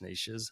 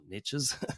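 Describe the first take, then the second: First: The word has a non-American pronunciation. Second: The word has an American pronunciation.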